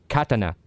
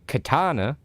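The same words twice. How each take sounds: First: It is said with a Japanese pronunciation. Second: It is said with a Western English pronunciation. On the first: The speaker calls it right. "I'm pronouncing it correctly" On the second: The speaker calls it wrong. "this version of that"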